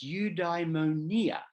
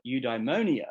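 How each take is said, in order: First: Eudaimonia said slowly the Greek way, stress late on the NI; careful, slow Greek eudaimonia, peaking on the second-last syllable; Greek pronunciation. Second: Eudaimonia the anglicized way, stress on MO; easy English eudaimonia, quicker, with the MO stressed; English pronunciation. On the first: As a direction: say eudaimonia as in Greek, drawn out as eu-dai-mo-NI-a. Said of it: "that's the Greek pronunciation". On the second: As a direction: say eudaimonia as English speakers do, you-dye-MO-nia. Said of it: "the way most English speakers pronounce it".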